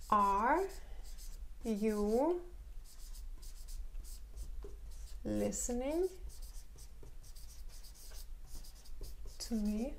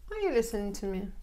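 First: Word by word question; slow teacher demo; slow dictation. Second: Quick connected reading; fast natural repeat; natural speed question. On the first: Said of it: "teacher models the question slowly". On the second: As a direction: say it the way it really sounds. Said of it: "teacher repeats question at speed". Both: Shown as a demonstration.

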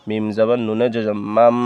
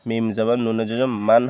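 First: মাম ending in a held m; N turned to M. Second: মান closed with a dental n; ending in N. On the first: Teacher correcting the reading for learners, মাম with held m. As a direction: close the lips and hum the end of মাম. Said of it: "উচ্চারণ হবে মিম জবর মিমে জজমের". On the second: Teacher showing the expected reading, মান ending in n. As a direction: say মান with a clear n at the end. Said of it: "মকার মা দন্তান্ন মান". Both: Shown as a demonstration.

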